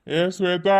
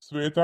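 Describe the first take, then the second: First: Calling out. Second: Said in the usual way. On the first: Acted. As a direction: call Shweta across the house. Calls again, louder.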